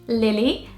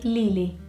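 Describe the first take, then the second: First: The name is said with a British accent. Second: The name is said with a Portuguese accent.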